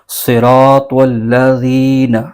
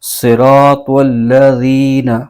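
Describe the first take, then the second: The two takes are said the same way.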